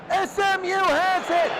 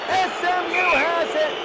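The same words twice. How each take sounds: The two takes are said the same way.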